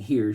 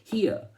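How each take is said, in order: First: It is said in a plain, non-Southern accent. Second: It is said in a Southern drawl.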